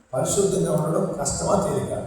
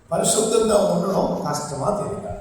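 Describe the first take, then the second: The two takes are said the same way.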